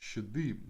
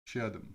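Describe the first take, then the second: First: It is said in an exaggerated put-on accent. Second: It is said plainly, without a put-on accent. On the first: The speaker calls it right. "they would say something like Shadim" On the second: The speaker calls it wrong. "They wouldn't say Shadim"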